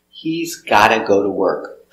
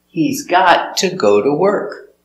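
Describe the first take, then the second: First: Got to is reduced and blended into gotta. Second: Got to is said as two clear words. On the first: "you can hear got to or gotta" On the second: "you can hear got to or gotta"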